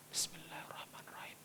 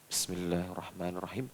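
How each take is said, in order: First: It is said quietly, almost under the breath. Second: It is said a little louder, clearly audible.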